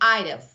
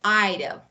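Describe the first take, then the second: First: Would is shortened and joined onto I. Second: Would is shortened and joined onto I.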